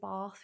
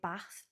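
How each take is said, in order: First: The word is said with a southern-sounding vowel. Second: The word is said with a northern-sounding vowel. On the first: This is not how the speaker's own region says it. "we don't say Bath" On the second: This is how the speaker's own region says it. "we say Bath, which sounds more northern"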